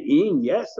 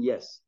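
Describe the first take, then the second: First: IN and YES pushed up high into a question; incredulous YES, swooping high at the end. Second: Said in the usual way. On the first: Shown as a demonstration. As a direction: ask YES in disbelief. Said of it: "If it's a question mark". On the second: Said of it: "If it's a statement".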